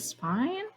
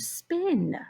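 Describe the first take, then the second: First: The vowel is a long I sound. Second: The vowel is a short I sound. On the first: The speaker calls it wrong. "So I said spine. I used a long I" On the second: The speaker calls it right. "What if I use a short I sound?"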